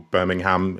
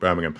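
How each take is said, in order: First: It is said with an American pronunciation. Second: It is said with a British pronunciation. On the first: "Birmingham if you're from the States" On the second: "we call it Birmingham"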